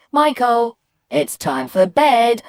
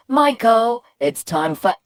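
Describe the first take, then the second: First: Higher, louder call, "bed" drawn out; calling mum. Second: High "Michael", then dropping and breaking off at "for"; mum's call cut short. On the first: Mum sending Michael to bed, loud calling. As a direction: call it out in a raised, insistent voice. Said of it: "So when my mum said". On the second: What Michael hears of mum, call cut short. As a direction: call "Michael", leave "for" hanging unfinished. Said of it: "all I could hear was". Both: Retold or imitated.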